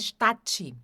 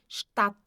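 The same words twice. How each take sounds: First: An extra I vowel follows the final T. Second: The word stops cleanly on the final T. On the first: The speaker calls it wrong. "Cuidado também para não colocar um I aqui no final do T" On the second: The speaker calls it right. "Terminou no T"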